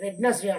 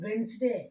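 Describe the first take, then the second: First: A d sound is heard in the first syllable. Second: No d sound is heard in the first syllable. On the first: The speaker calls it wrong. "చాలామంది ... అంటారు" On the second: The speaker calls it right. "డి letter silent"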